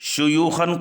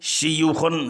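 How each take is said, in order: First: The first syllable has a u vowel. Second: The first syllable has an i vowel.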